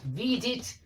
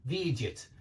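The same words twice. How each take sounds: First: Видит with a clear i in the last syllable, pitched high; clear -it ending. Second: Видят with a y-glide and loose vowel before t; soft -yat ending. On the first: Teacher contrasts similar forms, видит with a clear -it ending. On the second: Teacher contrasts similar forms, low видят with a -yat ending. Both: Shown as a demonstration. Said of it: "it's slightly different".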